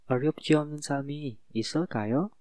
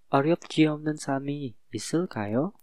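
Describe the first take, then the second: No difference in how they are said.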